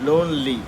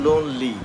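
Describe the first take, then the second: No difference in how they are said.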